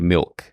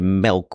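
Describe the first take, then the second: First: The vowel sounds like the 'i' in 'bit'. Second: The vowel sounds like the 'e' in 'bed'. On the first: This is the standard way of saying it. "I consciously do try to say milk" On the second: This is the regional Midwest way of saying it. "They would say milk with an E"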